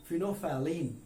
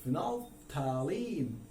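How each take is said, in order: First: फिनोफैलिन said slowly as fee-no-fa-leen, l and th silent; British English फिनोफैलिन; British pronunciation. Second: फिनोफैलिन said slowly with every letter sounded, phenol-thalein; American English फिनोफैलिन; American pronunciation. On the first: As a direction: drop the l and th in फिनोफैलिन. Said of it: "इसका pronunciation English में कौन सी वाली". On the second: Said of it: "American English में इसका pronunciation करेंगे". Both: Shown as a demonstration.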